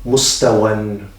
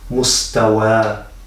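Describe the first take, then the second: First: The word ends with a short vowel plus n. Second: The word ends with a long a vowel. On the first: The reading continues after the word. "We read it like this" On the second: The reader stops after the word. "when we pause after reading this word, ... we will read it as mustawa with a long a"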